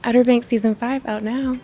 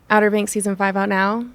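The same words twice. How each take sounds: First: It is said in a flirty tone. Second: It is said in a sarcastic tone.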